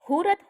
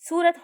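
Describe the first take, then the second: First: The word begins with an h sound. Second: The word begins with an s sound. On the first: This is the dialect form. "સનો હ થાય છે" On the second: This is the standard form. "સનો હ થાય છે"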